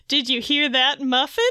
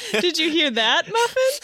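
First: "hear" stressed, rising into a questioning "Muffin"; misplaced emphasis. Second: Higher retake through laughter, "Muffin" lifted right up; corrected emphasis. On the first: Veronica asks her cat, misplaced emphasis on "hear". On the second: Veronica asks her cat, corrected emphasis, laughing, "Muffin" high. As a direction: redo it giggling, pitching "Muffin" high as the cat's name. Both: Acted. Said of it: "put the emphasis on the wrong word".

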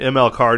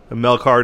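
First: "M L Carr" spelled out as the letters em, el; "M L Carr" with each initial spoken separately; corrected name. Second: "Mel Carr" said as one first name, mɛl; "Mel Carr" with Mel spoken as a single word; wrong name. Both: Real, not acted. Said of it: "Mel Carr, jeez".

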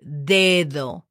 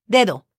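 First: "Dedo" drawn out slowly and lower; slow model pronunciation. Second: Said in the usual way. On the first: Shown as a demonstration. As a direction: stretch both syllables of "Dedo" for a learner. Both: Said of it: "is called dedo".

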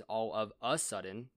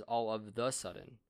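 First: "a" picked out, rising before "sudden"; stress on A. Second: "the" picked out against "a"; stress on THE. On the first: Reading out the wrong phrase to friends, stress on "a". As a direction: mark "a" as the word in question. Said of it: "which is wrong". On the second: Reading out the supposedly correct phrase, stress on "the". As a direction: mark "the" as the correct word. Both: Shown as a demonstration.

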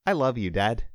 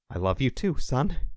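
First: Lightly voiced little son; a touch higher, innocent as if nothing happened; small boy, untroubled. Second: Understated choked-up father; a touch of emotion catching in a dad's reply. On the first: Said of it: "the small boy said as if nothing had happened". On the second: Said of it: "Tom choked". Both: A narrator's reading.

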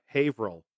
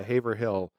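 First: Haverhill as "HAY-vrul", with no H in hill; local pronunciation. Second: Haverhill as "HAY-ver-hill", every syllable sounded; phonetic pronunciation. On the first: Naming a town people get wrong, Haverhill as "HAY-vrul". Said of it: "people get wrong all the time". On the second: Echoing co-host's reading, Haverhill as "HAY-ver-hill". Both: Shown as a demonstration.

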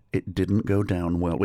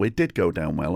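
First: Said in the usual way. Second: "did" punched as a correction; emphatic "did", rest unstressed; stress on DID. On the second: Real, not acted. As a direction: correct yourself, leaning on "did". Corrects own phrase, stressing did.

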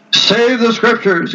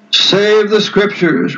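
First: Higher, slow, mock-astonished echo; lightly voiced indignant cardinal, drawn out; incredulous exclamation. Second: Slow, mildly heated reply; a touch of heat, drawn out slowly; with some warmth. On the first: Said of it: "exclaimed Cajetan". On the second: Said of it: "replied Luther with some warmth". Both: A narrator's reading.

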